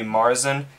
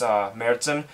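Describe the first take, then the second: First: The first vowel sounds like the vowel in March. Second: The first vowel sounds unlike the vowel in March. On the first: The speaker calls it wrong. "If you read it without the umlaut, it'll be Märzen, which sounds close to March" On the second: The speaker calls it right. "that's how you pronounce it, by the way, when you have the umlaut"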